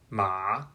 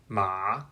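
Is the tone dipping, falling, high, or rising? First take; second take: dipping; dipping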